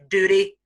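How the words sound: It is said in an American accent. "in American English"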